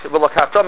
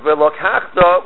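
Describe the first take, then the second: First: "Velokachta" with the final "ta" stressed; stress on last syllable. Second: "velokachta" with the accent on "kach", slowly; stress before the last syllable. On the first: Teacher showing the command meaning, last syllable stressed. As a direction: put the accent on the "ta" of "Velokachta". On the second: Teacher showing the past meaning, next-to-last syllable stressed. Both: Shown as a demonstration. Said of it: "you stress the last syllable".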